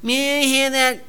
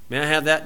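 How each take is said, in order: First: The request is said in a whining voice. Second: The request is said in a plain voice. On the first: The speaker calls it wrong. "the kid that whines" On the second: The speaker calls it right. "Say it right way"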